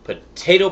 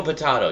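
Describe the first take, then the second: First: Potato with a long "ay", high and loud; pronounced po-TAY-to. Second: Potato with an "ah", falling at the end; pronounced po-TAH-to. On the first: Shrugging off the pronunciation debate, Potato as "po-TAY-to". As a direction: say Potato the usual way, "po-TAY-to", lifted at the end. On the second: Shrugging off the pronunciation debate, potato as "po-TAH-to". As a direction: say potato as "po-TAH-to", high then dropping. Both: Shown as a demonstration. Two ways to say one word.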